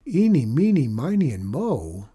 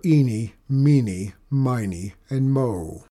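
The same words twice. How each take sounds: First: Amazed echo of odd names; exclaimed. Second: Said in the usual way. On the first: Acted. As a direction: blurt the names back in disbelief. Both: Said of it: "Lauren exclaimed".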